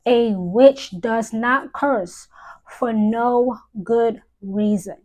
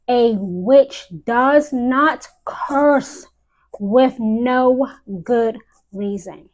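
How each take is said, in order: First: Said in the usual way. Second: Very slow, each word of "does not curse" weighted; slow, deliberate insistence; emphatic repeat. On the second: Real, not acted. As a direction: drag out "A witch does not curse" to hammer it home.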